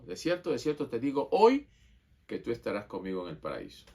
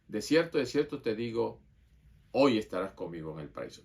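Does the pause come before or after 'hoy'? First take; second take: after; before. First: The pause comes after the word 'hoy'. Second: The pause comes before the word 'hoy'.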